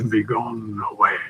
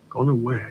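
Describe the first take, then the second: First: Melodramatic thin voice. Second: Said in the usual way. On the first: Acted. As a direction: let it fade on a longing sigh. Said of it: "The voice became melodramatically thin, a whisper of longing". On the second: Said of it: "The voice became melodramatically thin".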